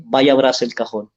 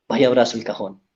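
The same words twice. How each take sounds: First: Said in the usual way. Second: Gentle, softer retold urging; softer repeat. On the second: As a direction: repeat the advice softly, coaxing the father. (repetición más suave y persuasiva) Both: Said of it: "pero le dije".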